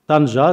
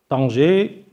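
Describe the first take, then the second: First: The name is pronounced the Arabic way. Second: The name is pronounced the French way. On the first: The speaker calls it right. "je les prononce en arabe" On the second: The speaker calls it wrong. "la manière avec laquelle les Français ont donné les dominations des villes ne convient pas réellement"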